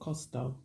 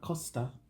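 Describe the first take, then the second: First: The word ends with an 'oh' vowel. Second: The word ends with an 'ah' vowel. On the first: The speaker calls it wrong. "not Costo" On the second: The speaker calls it right.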